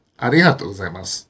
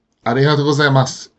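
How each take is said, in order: First: ありがとうございます as one phrase, sinking low after the first accent; accent ありがとう only, let ございます fall away lower; combined accent phrase. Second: ありがとうございます with a second pitch accent on ございます; separate accent phrases. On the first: Teacher showing the usual form, ありがとうございます in one falling accent. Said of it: "you will hear". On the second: Teacher showing learners the uncombined form, ありがとうございます in two accents. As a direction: keep the pitch up again for ございます after ありがとう. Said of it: "Rather than". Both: Shown as a demonstration.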